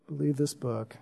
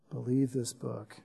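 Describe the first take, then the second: First: Much softer earnest urging; quiet appeal. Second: Even softer, low, intimate repetition; near-whispered echo. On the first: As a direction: press it gently on them. First of repeated appeal. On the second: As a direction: let the words sink in, barely voiced. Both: Acted.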